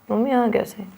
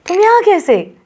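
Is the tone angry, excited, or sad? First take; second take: sad; excited. First: It is said in a sad tone. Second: It is said in an excited tone.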